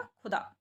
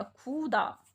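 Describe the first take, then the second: First: Said in the usual way. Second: खुदा with the first vowel drawn out as "khoo"; long U in खुदा. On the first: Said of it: "छोटे ऊ की मात्रा लगाई है". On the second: Shown as a demonstration. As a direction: stretch the ऊ: "khooo-da" for खुदा. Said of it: "बड़े ऊ की मात्रा लगा देते हैं". (खुदा में लंबा ऊ, "खूदा")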